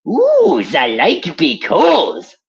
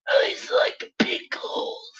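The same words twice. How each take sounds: First: Put-on much higher, louder German accent; a gleeful mad German doctor; Richtofen. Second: High, slow unvoiced German-accented whisper; Richtofen whisper. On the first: Voicing Richtofen's silly line, loud German accent. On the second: Repeating Richtofen's line as a creepy German-accented whisper. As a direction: breathe the line like a creepy secret. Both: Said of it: "a Nazi doctor named Doctor Edward Richtofen".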